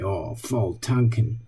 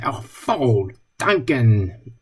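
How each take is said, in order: First: Low, soft and slow, a let-down sigh of a phrase; dismayed. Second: "Oh, voll tanken" drawn out slowly and savoured; pleased. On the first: Friends joking over a bad moment, deflated. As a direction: say "Oh, voll tanken" like something just went wrong. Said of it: "When something bad happened". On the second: Friends joking over a good moment, delighted. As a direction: say "Oh, voll tanken" like good news just arrived. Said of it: "when something good happened". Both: Retold or imitated.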